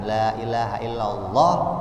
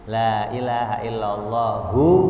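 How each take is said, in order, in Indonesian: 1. Frasa ini berakhir dengan konsonan, tidak ada vokal akhir. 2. Frasa ini berakhir dengan vokal u.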